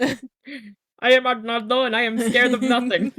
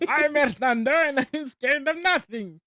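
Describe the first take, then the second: First: Loud, high boastful character voice; bold hero voice. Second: Lighter echo of the hero voice; boastful character voice. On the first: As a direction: declare it like a cartoon hero. Movie quote, loud. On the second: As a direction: repeat the boast playfully. Echoing the quote. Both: Pretend.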